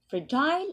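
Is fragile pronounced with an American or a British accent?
British. It is said with a British pronunciation. "Fragile is the British pronunciation"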